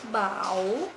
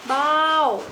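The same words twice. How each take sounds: First: The syllable is said with a rising tone. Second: The syllable is said with a falling tone. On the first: "Dan dengan nada bangkit" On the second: "Dengan nada jatuh"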